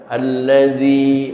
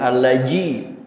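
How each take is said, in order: First: The middle consonant is a soft dz sound. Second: The middle consonant is a hard j sound. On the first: The speaker calls it right. "Suaranya remuk namun tidak pecah" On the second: The speaker calls it wrong. "bukan allaji"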